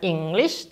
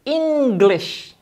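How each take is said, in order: First: English with the stress misplaced on the second syllable; wrong stress on English. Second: English said slowly, stress on the first syllable EN; slow model English, punch EN. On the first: Teacher showing the wrong stress on English. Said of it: "Bukan English loh ya". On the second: Teacher modelling stress for students on English. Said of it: "Penekanannya di suku kata pertama". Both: Shown as a demonstration.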